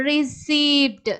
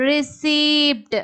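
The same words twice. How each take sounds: Both takes have the same delivery.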